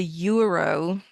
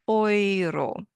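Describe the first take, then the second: First: Euro said the English way, you-roh; English pronunciation. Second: Euro said as oi-ro, with oi; German pronunciation. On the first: Teacher showing the wrong English euro, English pronunciation. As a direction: say euro like an English speaker would. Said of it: "is not pronounced euro in German". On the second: Teacher giving the right German Euro, German pronunciation. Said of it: "it's pronounced". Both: Shown as a demonstration.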